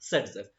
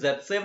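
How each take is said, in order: First: The name starts with 's' and ends in 'f'. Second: The name is read as spelled, starting with 'z'. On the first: This is how the name is actually spoken. "लेकिन बोला जाता है सेट्स-एफ" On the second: This is how the name is written. "जेड-सेव लिखा जाता है"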